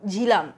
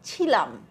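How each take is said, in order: First: The name begins with a voiced aspirated 'jh' sound. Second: The name begins with a voiceless aspirated 'chh' sound. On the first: The speaker calls it right. "ঝয়ে হর্ষই লয়াকার ম" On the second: The speaker calls it wrong. "ছয় হর্ষই লয়াকার ম"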